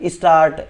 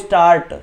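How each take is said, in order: First: A short i vowel comes before the s. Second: The word starts directly with the s sound. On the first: This shows the influence of the regional language. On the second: This is the standard pronunciation.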